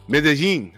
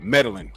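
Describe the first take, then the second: First: The double L is said as a Y sound. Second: The double L is said as an L sound. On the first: "a two L's is the Y sound" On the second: "you know how we pronounce it in America?"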